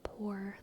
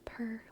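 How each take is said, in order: First: The vowel sounds like 'or', a standard pronunciation. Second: The vowel sounds like 'er', an Irish pronunciation. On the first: "Like poor" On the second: "Irish people do a lot of ors as er"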